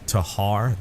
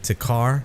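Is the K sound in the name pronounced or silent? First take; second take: silent; pronounced. First: The K sound in the middle is silent. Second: The K sound in the middle is pronounced. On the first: This is how other people say it. "They leave the K silent" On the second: This is how the speaker says it. "I call it the Takar"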